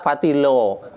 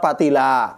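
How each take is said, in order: First: The word ends with an o vowel. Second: The word ends with an a vowel. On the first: A Javanese speaker says it. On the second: A Sundanese speaker says it.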